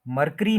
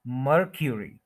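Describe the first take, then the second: First: मरकरी as "mar-KREE"; common mispronunciation. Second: मरक्यूरी as "MUR-kyu-ree"; correct pronunciation. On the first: Teacher showing the wrong form, mispronounced. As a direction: run "k" straight into "ree" in मरकरी. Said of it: "ये गलत है". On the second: Teacher giving the corrected form, careful pronunciation. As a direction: put a clear "kyu" in the middle of मरक्यूरी. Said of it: "मरकरी नहीं बोलेंगे". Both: Shown as a demonstration.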